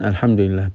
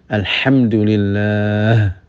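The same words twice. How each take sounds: First: The h is a light, plain breathy sound. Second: The h is a tense sound deep in the throat. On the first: The speaker calls it wrong. "ya cuman alhamdulillah" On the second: The speaker calls it right. "belum alhamdulillah"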